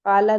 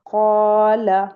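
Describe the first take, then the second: First: "क़ाला" quick, with a plain k; "क़ाला" with a thin open "aa"; wrong light Kaala. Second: "क़ाला" as qaw-la, first vowel held long; "क़ाला" stretched for two counts, short "la"; heavy two-count Qaala. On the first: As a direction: say "क़ाला" casually as kaa-la, unstretched. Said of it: "क़ाला नहीं पढ़ेंगे". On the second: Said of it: "इन्हें टू count पढ़ेंगे". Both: Shown as a demonstration.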